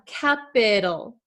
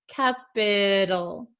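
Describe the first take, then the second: First: The middle consonant is a soft D-like flap. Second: The same.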